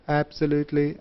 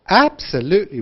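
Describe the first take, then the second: First: The pitch stays narrow and flat. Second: The pitch moves over a very wide range. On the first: The speaker calls it wrong. "这样子不对" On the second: The speaker calls it right. "we must say absolutely"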